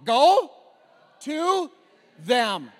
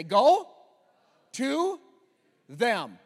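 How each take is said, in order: First: Shouted even harder, word by word; louder. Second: Firm loud call to repeat; call and response. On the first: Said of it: "Say it louder". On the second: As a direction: lead the crowd line by line. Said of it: "Repeat after me". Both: Shown as a demonstration.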